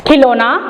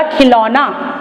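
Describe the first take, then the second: First: खिलौना said with a short closed o, khilona; the wrong form खिलौना, with a plain o sound; wrong pronunciation. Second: खिलौना with an open au, khilauna; correct pronunciation. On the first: Teacher shows pupils the wrong form, said as khilona. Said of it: "खिलौना ये शब्द गलत है बच्चों". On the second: Teacher gives pupils the right form, khilauna with au. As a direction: say खिलौना with a broad au vowel. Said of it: "खिलौना में बड़े औ की मात्रा आती है". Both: Shown as a demonstration.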